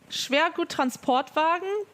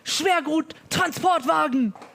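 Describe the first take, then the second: First: The word is said in a normal, unforced way. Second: The word is said harshly and forcefully. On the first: The speaker calls it right. "that is the normal way to say it" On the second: The speaker calls it wrong. "then it sounds stupid. And then it sounds harsh"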